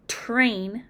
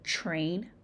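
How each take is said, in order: First: It begins with a plain t and r. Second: It begins with a ch-like sound.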